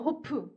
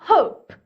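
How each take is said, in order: First: The vowel starts low without force. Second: The vowel starts high with force. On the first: The speaker calls it wrong. "낮게 시작하면" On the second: The speaker calls it right. "벌써 올라가서 힘을 좀 주지"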